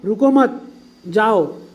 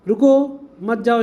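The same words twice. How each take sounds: First: The pause comes after the second word. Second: The pause comes after the first word.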